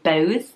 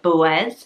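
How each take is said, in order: First: The name is run together as one syllable. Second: The name ends in a separate 'is' syllable. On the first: The speaker calls it wrong. "just say it in one long go" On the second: The speaker calls it right. "the A Z is more of an is"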